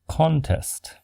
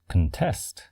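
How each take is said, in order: First: The stress is on the first syllable. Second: The stress is on the second syllable. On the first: It is used as a noun. "For the noun" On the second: It is used as a verb. "For the verb"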